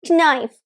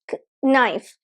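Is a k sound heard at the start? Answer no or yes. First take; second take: no; yes. First: The word starts with an n sound, no k. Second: A separate k sound comes before the word.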